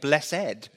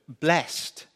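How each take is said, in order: First: The word is pronounced in an old-fashioned way. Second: The word is pronounced in an ordinary, modern way.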